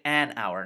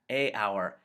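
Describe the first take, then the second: First: An n sound links the article to the word. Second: The vowels meet with no n sound between. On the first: The speaker calls it right. "That's why we say an hour" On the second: The speaker calls it wrong. "a hour does not flow clearly off the tongue"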